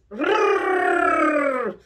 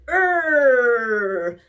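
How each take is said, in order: First: Higher, crisp rolled r; rolled r trill. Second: Growling. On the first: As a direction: trill the r cleanly. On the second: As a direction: growl instead of rolling r. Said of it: "No, that's growling". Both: Shown as a demonstration.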